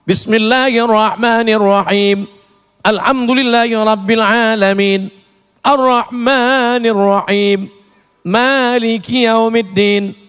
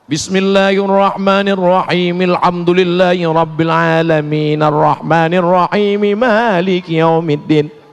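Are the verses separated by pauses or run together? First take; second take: separated; run together. First: It pauses at the end of each verse. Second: The verses are joined without pausing.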